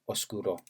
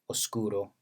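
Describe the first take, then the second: First: The stress is on the last syllable. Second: The stress is on the middle syllable. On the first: "word final stress" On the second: "word medial"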